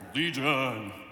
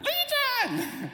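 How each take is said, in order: First: It is said in a calmer, less irritated tone. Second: It is said in a more irritated tone.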